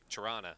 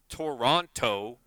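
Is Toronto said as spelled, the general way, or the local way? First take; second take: local; as spelled. First: It is said the way locals say it. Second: It is said just as it is spelled. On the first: The speaker is from the city. "if you're from there, it's like Toronto" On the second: This is how the name is written. "It's spelled Toronto"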